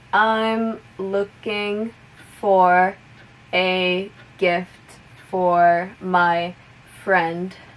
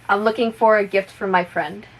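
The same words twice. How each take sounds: First: The sentence is spoken at moderate speed. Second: The sentence is spoken at full normal speed. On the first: "a little bit faster" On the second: "one more time at normal speed"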